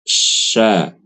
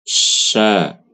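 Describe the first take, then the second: Both takes have the same delivery.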